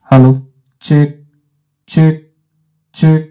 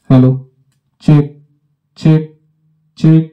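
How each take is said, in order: First: The voice sounds brighter, with boosted treble. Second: The voice sounds flat, with neutral tone settings. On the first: "আমি যদি ট্রেভেলটিকে বাড়াই" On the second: "equalisation flat position করে রেখেছি"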